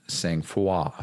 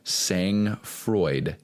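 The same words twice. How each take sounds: First: It is said with its French pronunciation. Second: It is read out as it is spelled. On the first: The speaker calls it right. "But it's pronounced" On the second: The speaker calls it wrong. "That's the, how it's spelled"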